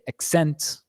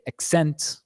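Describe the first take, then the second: First: The stress is on the second syllable. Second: The stress is on the second syllable.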